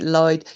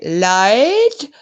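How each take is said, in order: First: Said in the usual way. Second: Lloyd? yelled loud and high with a falling end, in a put-on regional accent; imitating Denny's call. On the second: Copying Denny shouting for her husband Lloyd, loud accented call. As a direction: call Lloyd the way his wife does. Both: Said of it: "Did I do the accent right?".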